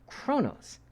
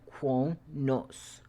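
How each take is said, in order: First: The name begins with a 'crow' sound. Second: The name begins with a 'qua' sound. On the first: This is how the characters actually say it. "they pronounce it" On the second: This is how the spelling suggests it. "it looks like it should be"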